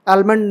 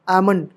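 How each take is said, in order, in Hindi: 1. L की ध्वनि बोली जाती है। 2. L की ध्वनि छोड़ दी जाती है।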